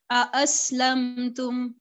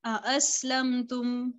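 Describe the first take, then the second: First: अ, असलम तुम slow, the hamzas stopped apart; slow tajweed, अ and असलम cleanly separated; with tahqiq. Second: अ, असलम तुम repeated slowly, hamzas kept apart; slow recitation of अ, असलम तुम, no merging; with tahqiq. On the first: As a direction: recite अ, असलम तुम with each hamza distinct. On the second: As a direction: say अ, असलम तुम again with clear glottal stops. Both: Shown as a demonstration. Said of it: "आप इसको कैसे पढ़ते हैं".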